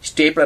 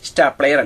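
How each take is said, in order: First: It starts with 'stay' and ends in 'ler'. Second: It starts with 'stah' and ends in 'layer'. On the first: The speaker calls it right. "ഇവൻ സ്റ്റേപ്ലർ ആണ്" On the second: The speaker calls it wrong. "സ്റ്റാപ്ലെയർ അല്ല"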